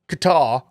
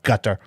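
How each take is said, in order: First: It is said with a British-style pronunciation. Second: It is said with a Southern US accent. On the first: The speaker sounds like an old colonial outsider. "If you're like a British colonialist, then you can say Qatar" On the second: The speaker overdoes it in the wrong accent. "but not with a southern accent, like Qatar"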